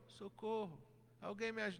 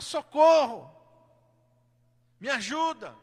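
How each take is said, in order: First: It is said weakly and quietly. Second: It is shouted loudly.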